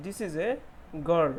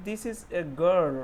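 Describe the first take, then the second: First: Said in the usual way. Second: Put-on "girl" drawn out slowly and louder; slow model reading. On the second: Shown as a demonstration. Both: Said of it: "दूसरा वाला sentence".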